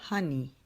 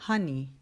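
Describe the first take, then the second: No difference in how they are said.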